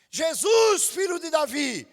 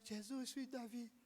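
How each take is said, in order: First: It is said loudly, with the voice raised. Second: It is said weakly, hesitantly, without raising the voice. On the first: The cry is heard. The speaker calls it right. "você vai subir a voz no momento certo" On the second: The cry is not heard. The speaker calls it wrong. "Não gritou, não foi ouvido"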